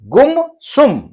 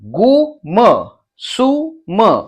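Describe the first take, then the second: First: The syllables are joined into one smooth word. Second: Each syllable is said separately with pauses.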